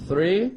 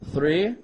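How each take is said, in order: Both takes have the same delivery.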